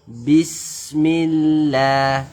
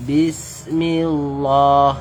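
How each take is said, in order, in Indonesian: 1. Bunyi L dalam Allah itu ringan dan tipis. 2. Bunyi L dalam Allah itu berat dan tebal. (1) "lafaz Allah yang kita baca tipis"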